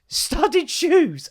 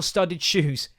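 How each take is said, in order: First: High-pitched, laughing disbelief; incredulous. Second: Said in the usual way. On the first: Acted. Dad repeats son's odd word, incredulous. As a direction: echo it as if it's absurd. Incredulous echo of wrong term.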